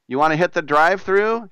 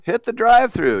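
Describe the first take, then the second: First: Said in the usual way. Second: "Hit the drive-thru" answered higher and punched, with "drive-thru" stressed; punchy echo. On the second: Acted. Host answering his own question in the ad with a punchy echo. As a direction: bounce "Hit the drive-thru" back like a cheer.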